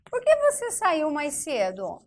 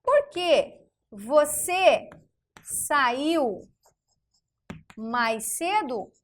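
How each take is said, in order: First: Said in the usual way. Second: Slow dictation. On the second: Shown as a demonstration. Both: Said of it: "Vamos pegar o porquê".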